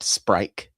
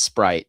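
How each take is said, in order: First: The word is said with an added K sound. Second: The word is said without a K sound.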